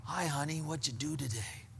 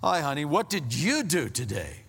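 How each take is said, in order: First: Low, soft, easy question; quiet, offhand check-in with a spouse; soft casual greeting. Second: Pointed question leaning hard on YOU; loaded greeting with an emphatic YOU; accusing tone. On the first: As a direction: greet gently, keeping it low and unpressured. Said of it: "say the exact same words". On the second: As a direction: make it an interrogation, swooping on YOU. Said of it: "Or you can say". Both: Shown as a demonstration.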